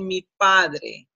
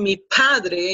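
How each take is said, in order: First: The P is soft, without a puff of air. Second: The P is explosive, with a puff of air. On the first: The speaker calls it right. "you have to soften it" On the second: The speaker calls it wrong. "instead of saying"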